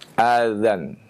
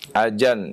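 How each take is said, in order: First: The middle consonant is a soft dh sound. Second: The middle consonant is a j sound. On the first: The speaker calls it right. "mengucapkan azan" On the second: The speaker calls it wrong. "Atau dengan jim"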